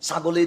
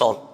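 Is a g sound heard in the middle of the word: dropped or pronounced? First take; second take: pronounced; dropped. First: The word keeps its middle g sound. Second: The word drops its middle g sound. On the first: "ছাগলেই তো বলেন" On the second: "আমরা গ ফেলে দিই, আমরা বলি সল"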